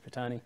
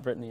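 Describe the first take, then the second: First: The name sounds like Britannia minus final A. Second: The name does not sound like Britannia. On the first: This is how the name's owner says it. The speaker calls it right. "So it's like Britannia, but with just out the A on the end" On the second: This is how other people say the name. The speaker calls it wrong. "people call her Brittany"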